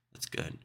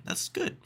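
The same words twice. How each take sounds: First: Said in the usual way. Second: High, breathy whispered "That's good". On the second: Pretend. Host whispering approval to himself, high and breathy.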